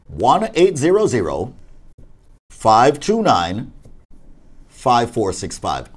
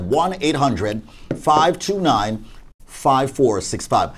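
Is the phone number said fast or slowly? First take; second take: slowly; fast. First: The number is said slowly. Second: The number is said quickly.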